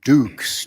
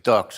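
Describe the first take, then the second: First: It has a long vowel, like 'dukes'. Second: It has a short vowel, like 'ducks'. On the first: "could just do it dukes just as easily" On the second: "I'm pronouncing it ducks"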